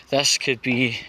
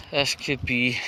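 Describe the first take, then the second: No difference in how they are said.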